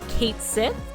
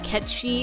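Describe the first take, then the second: First: The name is said as two words, Kate Sith. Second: The name is said as one word, Ketchi. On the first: It follows the English spelling. The speaker calls it wrong. "some people pronounce his name Kate Sith, because that's how it's spelled phonetically" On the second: It follows the Scottish origin. The speaker calls it right. "Ketchi is more accurate to its Scottish origins"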